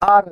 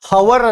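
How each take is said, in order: First: The word begins directly with a vowel. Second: The word begins with an h sound. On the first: The speaker calls it right. "ಆರ್ ಅಂತೀವಿ" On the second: The speaker calls it wrong. "ಇದನ್ನ ಹವರ್ ಅನ್ನಲ್ಲ"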